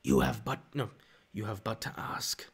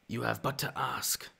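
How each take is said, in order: First: A lightly voiced dark lord offering power. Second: Maul voice. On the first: Doing Star Wars villain lines. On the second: Pretend. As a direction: draw it out with quiet menace. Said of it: "I actually have a decent Maul voice".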